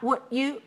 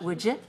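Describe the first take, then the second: First: The two words are said separately and clearly. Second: The two words are run together as one. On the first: The speaker calls it wrong. "not would you" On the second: The speaker calls it right. "this word would, this word you together"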